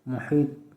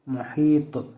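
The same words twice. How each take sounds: First: The final consonant stops flat without an echo. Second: The final consonant is released with an echoing bounce. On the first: "बग़ैर कलकला के" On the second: "कलकला के साथ"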